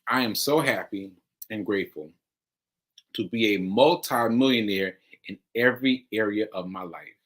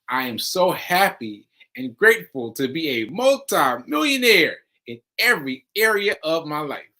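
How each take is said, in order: First: It is said plainly, without extra feeling. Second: It is said with strong, energetic feeling.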